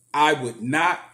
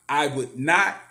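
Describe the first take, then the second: No difference in how they are said.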